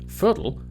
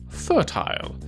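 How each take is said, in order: First: American accent, the ending shortened to an ul sound. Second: British accent, the ending said with a full il sound. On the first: "Americans would say" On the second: "whereas in Britain"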